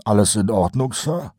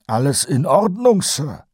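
First: Colon's higher voice, a casual question; sergeant asking. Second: Much higher, louder repeat of the question. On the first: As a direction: ask it lightly the first time. (beiläufig gefragt, Kolons Stimme) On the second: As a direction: ask again, pitching up to get his attention. (deutlich höher und lauter wiederholt) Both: A narrator's reading. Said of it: "wiederholte Kolon".

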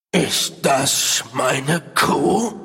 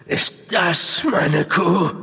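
First: Growling. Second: Slow, hollow questioning voice; eerie ghostly voice. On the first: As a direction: growl it out like a beast. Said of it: "knurrte er". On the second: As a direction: ask it like a lost spirit. Apparition's first asking. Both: Acted.

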